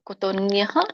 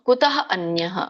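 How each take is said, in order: First: The two words are run together into one. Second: The two words are said separately and in full.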